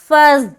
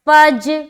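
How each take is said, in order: First: The consonant is a hard, hissing 'z' sound. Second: The consonant is a hard 'j' sound. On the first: "पहली जो सूरत है जा अदा हो रहा है" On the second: "दूसरी सूरत में आप जीम अदा कर रहे"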